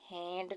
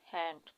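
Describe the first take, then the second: First: The vowel is drawn out long. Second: The vowel is clipped short. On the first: The speaker calls it wrong. "इस तरह से pronounce करते तो ... long vowel" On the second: The speaker calls it right. "ये short sound है"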